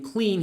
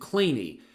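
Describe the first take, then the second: First: It is said as one syllable, like 'clean'. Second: It is said as two syllables, like 'clay-nee'. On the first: This is not how the man himself said his name. The speaker calls it wrong. "who didn't pronounce his name clean" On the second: This is how the man himself said his name. The speaker calls it right. "he pronounced it Claney"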